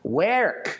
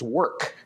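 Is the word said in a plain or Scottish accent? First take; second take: Scottish; plain. First: It is said in a Scottish accent. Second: It is said in a plain, everyday accent.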